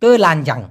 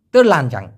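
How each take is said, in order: First: তেলানজাং said with no r sound, clean te-lan-jang; correct pronunciation. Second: তেলানজাং with an r slipped in after te, like ter-lan-jang; Malaysian r pronunciation. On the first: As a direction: say তেলানজাং without any r after the te. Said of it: "মূলত র কিন্তু উচ্চারিত হবে না". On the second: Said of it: "তে না বলে র উচ্চারণ করে". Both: Shown as a demonstration.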